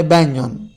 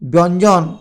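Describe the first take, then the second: First: ব্যঞ্জন said as "benjon"; spoken pronunciation. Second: First ব্যঞ্জন said as "bonjon"; spelling pronunciation. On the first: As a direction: say ব্যঞ্জন with a front first vowel, "byanjon". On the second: (বানান-অনুযায়ী "বঞ্জন" উচ্চারণ) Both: Shown as a demonstration. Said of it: "উচ্চারণে ব্যঞ্জন".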